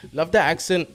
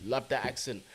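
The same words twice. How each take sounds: First: Playful hint of a louder, higher Trinidadian lilt; sing-song Trinidadian accent. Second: Said in the usual way. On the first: Streamer admiring Trinidadian viewers' accent, lightly imitated sing-song lilt. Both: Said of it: "You lot got that sing-song accent".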